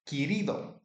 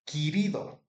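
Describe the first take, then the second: Both takes have the same delivery.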